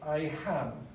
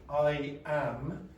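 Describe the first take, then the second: First: The second word starts with an added h sound. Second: The second word starts with a plain vowel. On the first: The speaker calls it wrong. "they'll say I ham" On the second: The speaker calls it right. "instead of saying I am"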